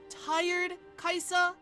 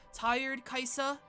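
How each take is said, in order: First: It is said in a normal voice. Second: It is said in a slightly deeper voice.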